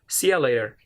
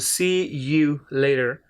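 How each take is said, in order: First: The word 'you' is reduced to 'ya'. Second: The word 'you' is said in full. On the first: "when they use this phrase very quickly, it sounds like" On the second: "ya means you"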